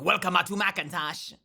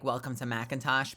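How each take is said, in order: First: A computer voice adds an extra vowel to welcome. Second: It is said in a normal voice.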